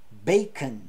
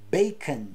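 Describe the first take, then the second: First: The second vowel is reduced to a schwa. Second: The same.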